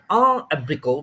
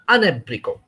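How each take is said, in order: First: The words are separate, with no linking n sound. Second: An n sound links the first word to the second. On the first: The speaker calls it wrong. "instead of saying a abrico, we don't say it like that" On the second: The speaker calls it right. "There'll be a liaison or linking between N and A"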